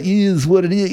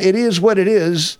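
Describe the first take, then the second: First: "is what it is" with IS drawn toward "eez"; slurred put-on pronunciation. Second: Said in the usual way. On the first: Shown as a demonstration. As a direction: say "is what it is" loosely, like "eez wudit ee". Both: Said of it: "I guess I kinda put a".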